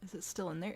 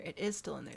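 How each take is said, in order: First: Said in the usual way. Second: "is" stressed, falling at the end. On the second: Real, not acted. Player answering own question, stress on "is". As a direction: confirm it, leaning on "is".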